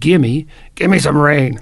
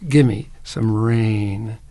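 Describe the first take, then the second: First: It is said as a blunt, demanding order. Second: It is said in a polite, asking tone. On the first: The speaker calls it wrong. "Don't do that" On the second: The speaker calls it right. "Say it politely"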